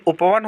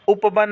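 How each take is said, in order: First: उपवन as "upa-van"; correct v sound. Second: उपवन as "upa-ban"; wrong b sound. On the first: Teacher giving students the right form, clear v. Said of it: "होता है". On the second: Teacher showing students the mistake, b substituted. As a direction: put b for v in उपवन. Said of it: "नहीं". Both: Shown as a demonstration.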